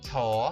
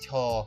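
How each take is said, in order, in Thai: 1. ระดับเสียงขึ้นที่พยางค์นี้ 2. ระดับเสียงตกที่พยางค์นี้ (1) "ฉอชิงเป็นอักษรสูงนะคะเสียงเขาจะเปล่งขึ้นเปล่งขึ้น" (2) "ส่วนชอเป็นอักษรต่ำมันจะเปล่งลง"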